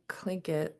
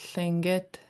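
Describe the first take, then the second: First: The word starts with a hard K sound. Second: The word starts with a breathy lateral sound. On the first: This is the everyday English way of saying it. "when I speak English, I tend to say clink it" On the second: This is the true native pronunciation. "the true pronunciation is a thinget L"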